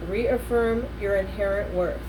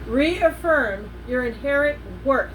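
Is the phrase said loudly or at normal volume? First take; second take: normal; loud. First: It is said at a normal speaking volume. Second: It is said in a very loud voice.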